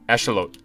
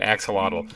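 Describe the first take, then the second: First: The word is said the Aztec-style way. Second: The word is said the common English way. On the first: This is the original native pronunciation. "That's actually Aztec. ... That's actually how that it's pronounced" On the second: This is how most people say it. "Everyone I see is it pronouncing it axolotl"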